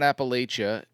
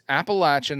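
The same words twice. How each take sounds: First: The third syllable sounds like 'lay'. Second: The third syllable sounds like 'latch'. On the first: The speaker calls it wrong. "not Appalachia" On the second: The speaker calls it right. "You say it's it's Appalachia"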